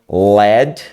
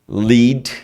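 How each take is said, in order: First: The vowel is short, like 'led'. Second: The vowel is long, like 'leed'. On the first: It means the metal. "a pronúncia led se transforma em chumbo" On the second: It means to guide or take somewhere. "liderar, levar"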